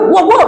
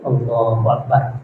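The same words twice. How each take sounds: First: It is said loudly, like a shout. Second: It is said softly, barely audible.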